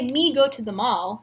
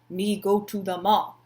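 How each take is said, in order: First: It is said in her normal voice. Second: It is said in a put-on caveman voice.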